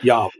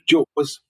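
First: It begins with a Y sound, foreign-style. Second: It begins with a J sound, English-style.

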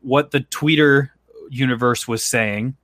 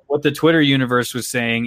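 First: It is said in a put-on old-person voice. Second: It is said in the speaker's normal voice.

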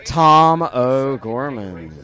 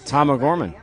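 First: It is said in a put-on cute voice. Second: It is said in a normal voice.

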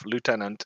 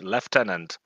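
First: It is said with the speaker's usual pronunciation. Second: It is said with the British pronunciation.

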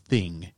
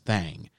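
First: The word is said plainly, without a drawl. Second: The word is said with a Southern drawl. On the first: The speaker calls it wrong. "So it's not the thing" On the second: The speaker calls it right. "you got to pronounce it with a southern drawl"

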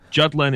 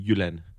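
First: The name is pronounced with English sounds. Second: The name is pronounced with Danish sounds. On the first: "Jutland is the English way to say it" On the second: "and I would say Jutland"

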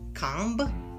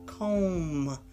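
First: The final B sound is pronounced. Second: The final B sound is not pronounced. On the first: The speaker calls it wrong. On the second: The speaker calls it right. "The B is silent"

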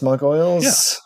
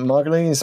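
First: The surname ends rhyming with gargoyles. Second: The surname ends rhyming with Cleese. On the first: "or Gargoyles" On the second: "I don't know if it rhymes with Cleese"

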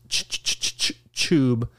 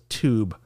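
First: The word begins with a 'ch' sound. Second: The word begins with a plain 't' sound. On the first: The speaker calls it wrong. "everyone says YouTube with a CH" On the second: The speaker calls it right. "America says tube, like adults"

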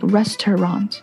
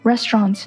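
First: The word is said with three syllables. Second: The word is said with two syllables. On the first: The speaker calls it wrong. "like restaurant 就多了一个音" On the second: The speaker calls it right. "是两个音节而不是三个音"

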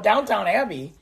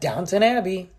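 First: The first word is said as downtown. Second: The first word is said as downton. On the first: The speaker calls it wrong. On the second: The speaker calls it right.

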